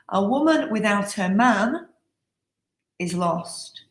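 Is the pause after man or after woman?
after man. There is a pause after man.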